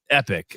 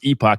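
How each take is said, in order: First: The name ends with a short 'ick' sound. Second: The name ends with a long 'oh' vowel sound. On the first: The speaker calls it right. "I'm actually am saying it right now" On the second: The speaker calls it wrong. "I was saying it wrong"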